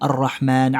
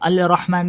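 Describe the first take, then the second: First: The L merges into a doubled R sound. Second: The L is pronounced clearly before the R. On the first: The speaker calls it right. "हम सूर रहमान कैसे पढ़ते हैं" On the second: The speaker calls it wrong. "हम अल रहमान नहीं पढ़ते"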